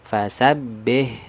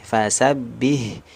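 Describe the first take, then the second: Both takes have the same delivery.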